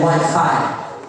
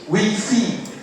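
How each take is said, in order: First: It is said with an English accent. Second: It is said with a French accent. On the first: "English people say Wi-Fi" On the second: "French people say Wi-Fi"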